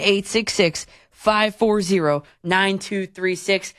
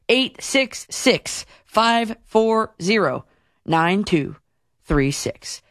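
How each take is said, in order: First: The number is read at a quicker pace. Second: The number is read at a slower pace.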